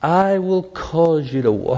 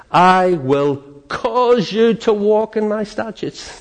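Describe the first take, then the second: First: Slow, lingering repeat of "I will cause you to walk"; savouring the phrase. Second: Slow, high, drawn-out reading of "I will cause you to walk"; emphatic scripture quote. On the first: Preacher dwelling on the promise to the congregation. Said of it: "That's the new covenant". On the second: Preacher proclaiming God's promise, slow and lifted. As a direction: lean hard on every word of "I will cause you to walk in my statutes". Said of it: "he says this". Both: Shown as a demonstration.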